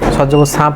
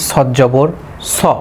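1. শেষ অক্ষরটি হালকা, একটু পাতলা আওয়াজে। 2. শেষ অক্ষরটি ভারী, একটু মোটা আওয়াজে। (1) "সা জবর সা" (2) "মোটা করে পড়তে হবে"

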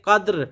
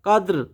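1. শব্দটি ব্যঞ্জনবর্ণ 'r' দিয়ে শেষ হয়েছে। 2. শব্দটি ব্যঞ্জনবর্ণ 'r' দিয়ে শেষ হয়েছে।

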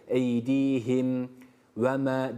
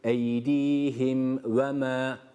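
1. İkinci kelimeden önce bir duraklama var. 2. Kelimeler duraklama olmadan birbirine bağlanarak okunuyor.

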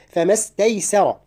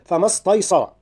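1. الحروف التي قبل الراء الأخيرة تُنطق خفيفة. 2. الحروف التي قبل الراء الأخيرة تُنطق ثقيلة. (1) "كل الحروف مرققة ما عدا الراء في آخرها" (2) "الخطأ"

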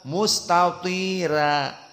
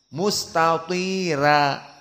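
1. Bunyi r-nya ringan dan tipis. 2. Bunyi r-nya ringan dan tipis.

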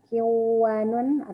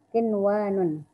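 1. Bunyi n menyatu dengan bunyi w yang mengikutinya. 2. Bunyi n diucapkan dengan jelas sebelum w. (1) "atau kiwanun" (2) "tapi bacanya tetap seperti izhar"

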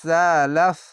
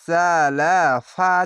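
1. শব্দটি একটি স্বরহীন ব্যঞ্জনে শেষ হয়। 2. শব্দটির শেষে একটি স্বরধ্বনি আছে। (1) "শেষ অক্ষর সাকিন দিয়ে লাফ বলে থেমে যেতে হবে" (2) "এখানে সালাফা আছে"

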